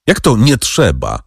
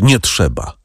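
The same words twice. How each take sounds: First: Mildly indignant question; a touch of astonished protest; exclaimed disbelief. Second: Understated, falling close on the refusal; subdued, lightly choked reply. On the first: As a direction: call back the words in disbelief. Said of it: "zawołał przewodniczący". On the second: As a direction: force it out with mild strain. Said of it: "wykrztusił pan de Villefort". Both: A narrator's reading.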